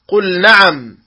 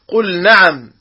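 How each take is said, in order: No difference in how they are said.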